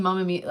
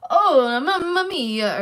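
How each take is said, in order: First: Said in the usual way. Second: Loud, high, drawn-out Italian exclamation; fake Italian accent. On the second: Imitating Sean's bad Greek that came out Italian, exaggerated Italian accent. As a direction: put on a hammy Italian accent. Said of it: "it was an Italian accent".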